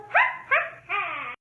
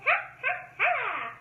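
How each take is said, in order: First: High, loud cackling witch laugh; hammed-up witch cackle. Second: High witch laugh; witch cackle. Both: Shown as a demonstration. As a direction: cackle like a witch on her broom. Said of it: "The witch on her broom goes".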